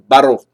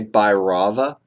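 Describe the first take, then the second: First: The name ends without a final vowel sound. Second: The name ends with a final vowel sound. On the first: "They said Bhairov" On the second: "We would say Bhairava"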